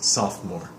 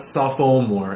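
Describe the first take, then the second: First: The middle vowel is dropped entirely. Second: The middle vowel is clearly pronounced. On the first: The speaker calls it right. "The second O is doesn't really make a sound" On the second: The speaker calls it wrong. "It's not sophomore"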